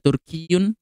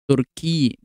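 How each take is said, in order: First: The word ends with a full 'un' ending. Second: The word stops without the 'un' ending. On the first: This is the full form of the word. "aslinya adalah Turkiyun" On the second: This is the form used when stopping on the word. "kalau dibaca disukunkan jadinya Turki"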